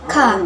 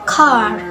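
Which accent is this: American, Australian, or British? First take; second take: British; American. First: It is said in a British accent. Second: It is said in an American accent. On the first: "In British accents" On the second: "In American accents"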